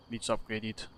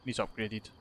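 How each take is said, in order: Both takes have the same delivery.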